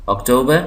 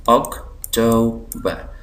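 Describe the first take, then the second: First: Said in the usual way. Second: October slowly as OC, to, ber; syllable by syllable. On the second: Shown as a demonstration. Teacher showing three syllables, October slowly split. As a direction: leave gaps inside October. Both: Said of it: "तीन syllable".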